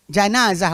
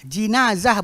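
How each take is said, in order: First: The first syllable has the vowel 'a'. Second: The first syllable has the vowel 'i'. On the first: "fathah jim"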